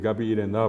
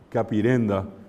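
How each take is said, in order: First: The stress is on the last syllable. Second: The stress is on the second-to-last syllable.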